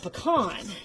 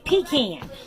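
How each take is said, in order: First: It is said the way Texans say it. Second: It is said the way North Carolinians say it. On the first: The speaker calls it right. "Where I grew up, it's called a pecan" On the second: The speaker calls it wrong. "they say it wrong. They say pecan"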